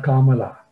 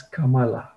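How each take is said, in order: First: Kamala with a long, stressed first vowel; mispronounced Kamala. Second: Kamala with two short syllables, then a long one; correct Kamala. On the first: Poet showing how her name is mispronounced, Kamala with long first vowel. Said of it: "doesn't even pronounce her name correctly". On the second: Poet correcting her name's pronunciation, Kamala with long last syllable. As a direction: keep Kamala's first two vowels short and lengthen the final LA. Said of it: "first two syllables are short syllables". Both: Shown as a demonstration.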